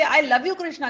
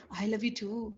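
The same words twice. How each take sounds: First: Loving devotee. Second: Tender reply. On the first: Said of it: "If you say". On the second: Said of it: "Krishna will say". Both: Shown as a demonstration.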